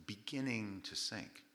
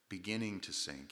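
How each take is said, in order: First: "beginning to sink" stretched out slowly and softly; slow, pointed "beginning to sink"; drawn-out emphasis. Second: Said in the usual way. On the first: Shown as a demonstration. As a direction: dwell on "beginning", slowing the whole phrase. Repeats the phrase to highlight it.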